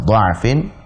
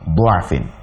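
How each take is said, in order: First: The first vowel is an 'a' sound. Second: The first vowel is a 'u' sound. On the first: "dha dengan fathah"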